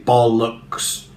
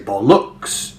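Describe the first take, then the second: First: Both syllables are stressed evenly. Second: The stress is on the second syllable. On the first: "evenly distribute the stresses. You wouldn't say bollocks" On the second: "put the stress on the second syllable"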